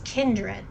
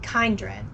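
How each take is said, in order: First: The first syllable sounds like 'kin'. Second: The first syllable sounds like 'kind'. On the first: This is how the game's voice actors say it. "But then it's kindred" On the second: This would match how they say the word kind. "not kindred"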